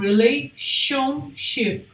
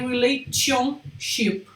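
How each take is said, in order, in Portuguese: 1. O 'tion' é pronunciado com som de 'sh'. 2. O 'tion' é pronunciado com som de 't'. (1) "vai vir com um som como se fosse um C H" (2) "Nunca vai ser relationship"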